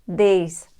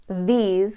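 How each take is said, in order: First: "these" as dez with the tongue on the teeth; dentalized voiced th. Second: Said in the usual way. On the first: Shown as a demonstration. Teacher showing the Irish voiced th. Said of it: "can become". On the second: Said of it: "the voiced version".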